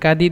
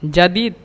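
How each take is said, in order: First: The word begins with a hard g sound. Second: The word begins with a j sound.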